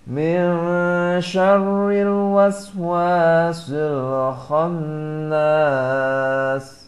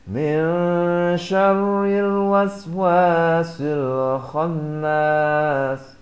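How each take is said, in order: First: The last long vowel is held four beats. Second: The last long vowel is held two beats. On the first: "empat harokat" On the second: "dua harokat"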